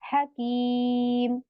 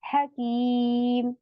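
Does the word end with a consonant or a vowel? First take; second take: consonant; consonant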